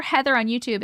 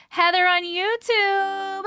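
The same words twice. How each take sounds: First: Said in the usual way. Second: High, drawn-out singsong call; long, lilting summons, pitched up. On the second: Real, not acted. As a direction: call for someone, stretching the last word. Calling out for a missing viewer.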